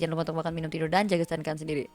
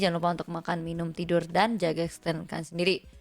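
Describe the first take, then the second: First: It is spoken very fast, rushing straight through. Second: It is spoken at a moderate, clearer pace.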